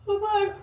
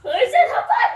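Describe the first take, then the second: First: Said in the usual way. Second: High, loud repeat of the request; much higher and louder repeat; insistent shout. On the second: Real, not acted. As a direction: yell it the second time, insisting.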